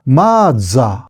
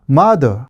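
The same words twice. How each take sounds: First: It is said with Japanese katakana-style pronunciation. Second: It is said with English pronunciation.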